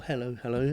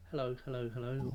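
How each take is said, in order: First: A little softer, half turned from the mic; slightly off mic. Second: Much softer, as if away from the mic; far from the mic. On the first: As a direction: say hello a bit off to the side of the mic. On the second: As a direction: call hello from well back off the mic. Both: Shown as a demonstration. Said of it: "sometimes I might go".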